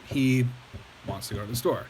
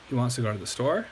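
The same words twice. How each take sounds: First: The pitch falls at the end. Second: The pitch rises at the end. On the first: It is a plain statement of fact. "That's a statement" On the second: It asks a question or shows surprise. "I change my tone, I raise it"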